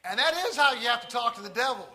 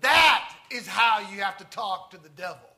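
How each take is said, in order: First: Quick, loud, high emphasis on "is"; emphatic repeat. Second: Loud outburst, hard on "That"; yelling out. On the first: Real, not acted. Preacher to congregation, emphatic restatement with "is" stressed. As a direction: drive the point home, punching "is". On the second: Retold or imitated. Wigglesworth, mesmerized onlooker, suddenly yelling out. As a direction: blurt it out at full volume. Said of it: "he yells out".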